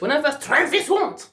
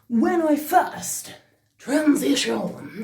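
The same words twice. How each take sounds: First: It is said in a plain English accent. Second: It is said with a French accent.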